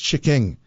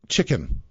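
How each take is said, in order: First: The ending is an ng sound. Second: The ending is a plain n sound. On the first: "it's chicking. I couldn't end anything with an N" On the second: "they would say things like"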